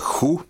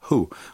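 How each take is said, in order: First: The word is said with a hard, harsh sound. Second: The word is said with a very soft sound. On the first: The speaker calls it wrong. "Только никогда не говорите who, это, этого слова нет в английском" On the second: The speaker calls it right. "очень мягко"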